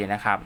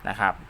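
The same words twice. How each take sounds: The two takes are said the same way.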